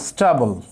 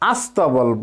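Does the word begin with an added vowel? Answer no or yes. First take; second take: no; yes. First: The word starts directly with the s cluster. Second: An a vowel is added before the s cluster. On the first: "ইংরেজিতে যেটাকে বলে স্টাবল" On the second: "ধ্বনির আগমন ঘটেছে শব্দের কোথায়, শুরুতে"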